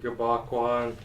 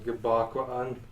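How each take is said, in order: First: The vowels run together with no break. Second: A brief catch separates the two vowels. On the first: The speaker calls it wrong. "So instead of Gabakwan" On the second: The speaker calls it right. "it marks there's a little space in between the vowels there"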